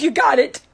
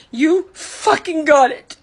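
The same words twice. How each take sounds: First: Said in the usual way. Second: Slow, stressed "fucking got it" with bite; a real hurt, bitter finish; bitter slow emphasis. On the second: Real, not acted. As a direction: spit it out bitterly, slowly. Repeated, slower and harder.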